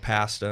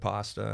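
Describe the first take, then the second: First: It uses the Canadian-style vowel in pasta. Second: It uses the standard vowel in pasta. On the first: "the Canadian accent, or at least Ontario accent" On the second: "instead of"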